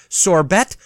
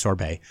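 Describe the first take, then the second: First: Sorbet said as sor-BET, with a hard final t, rhymes with bet; joke mispronunciation. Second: Sorbet said sor-BAY, silent t; correct pronunciation. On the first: Listing sawdust foods, deliberately says sorbet as sor-BET. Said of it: "Yes, I know it's pronounced sorbet". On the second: Correcting herself for viewers, sorbet said sor-BAY. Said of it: "I know it's pronounced sorbet". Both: Shown as a demonstration.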